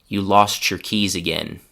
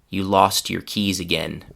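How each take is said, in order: The two takes are said the same way.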